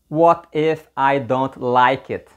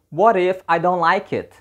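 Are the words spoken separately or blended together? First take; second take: separately; blended. First: Each word is pronounced separately and fully. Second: The words are linked and blended together. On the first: The speaker calls it wrong. "You don't say" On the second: The speaker calls it right. "You say"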